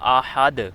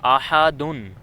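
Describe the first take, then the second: First: The word ends on a bare d sound. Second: The word ends with an -un sound. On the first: This is the form used when stopping. "इसका वक़फ़ होगा आहद" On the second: This is the full form without stopping. "इस पे दो पेश हैं दाल पे"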